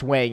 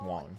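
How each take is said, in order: First: The name is said with an English-style vowel. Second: The name is said with a Mandarin-style vowel. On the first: The speaker calls it wrong. "it's not pronounced Wang in Chinese" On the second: The speaker calls it right. "It's pronounced Wang"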